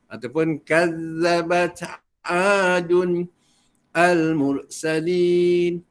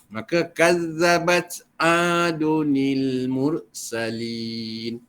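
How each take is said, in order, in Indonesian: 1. Kata 'adun' berdiri sendiri, tanpa tambahan 'ni'. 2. Kata 'adun' disambung ke depan dengan tambahan 'ni'. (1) "dilarang baca begitulah" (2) "Jadi bacaan dia begitu ya"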